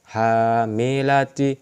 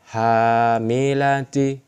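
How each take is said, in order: The two takes are said the same way.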